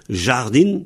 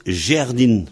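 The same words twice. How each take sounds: First: Said in the usual way. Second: Jardin said jerdin, A becomes E. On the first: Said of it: "se prononce". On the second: Shown as a demonstration. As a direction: jardin as jer-din, slowly. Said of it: "se prononce jardin".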